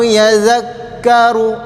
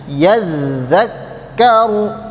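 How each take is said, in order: First: Only one consonant is held doubled. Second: Both consonants are held doubled. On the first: The speaker calls it wrong. "jangan sampai cuma satu saja yang kalian tasdidkan" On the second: The speaker calls it right.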